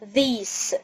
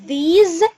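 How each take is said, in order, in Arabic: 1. الصوت الأخير هو s المهموس. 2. الصوت الأخير هو z المهتز. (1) "مش these" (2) "اسمها these ... الاس دي هنطقها كأنها زد"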